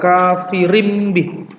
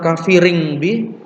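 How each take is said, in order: First: The tanwin is changed into an m sound. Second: The tanwin is made into an ng sound. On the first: The speaker calls it right. "tetapi diganti dengan mim, kafirim bi" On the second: The speaker calls it wrong. "bukan kafiring bi"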